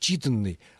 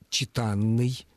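First: The stress does not fall on the suffix a. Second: The stress falls on the suffix a. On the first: This is the form actually in use. "не «читанный»" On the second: This form would follow the verb's logic. "ударение на суффиксе «а»"

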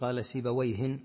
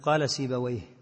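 First: The name ends with an added n sound. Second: The name ends without an added n sound. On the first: The speaker calls it wrong. "ما تقول" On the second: The speaker calls it right. "مثل ما تقول قال سيبويه"

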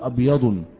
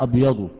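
First: The word ends with an added n sound. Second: The word ends without an added n sound. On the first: The speaker calls it wrong. "ولا تقول أبيض" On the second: The speaker calls it right. "ممنوع من الصرف لا ينون"

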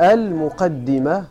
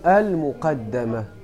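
First: The vowel after the d is i. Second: The vowel after the d is a. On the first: It is the part that comes before the main subject. "بكسر الدال" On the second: It is the part placed before the main subject. "أو بفتحها"

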